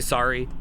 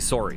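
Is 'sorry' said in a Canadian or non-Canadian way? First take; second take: non-Canadian; Canadian. First: The first vowel is not the Canadian 'sore' sound. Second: The first vowel sounds like 'sore', Canadian style. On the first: "I don't say sorry" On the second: "I say sorry. That's the biggest one"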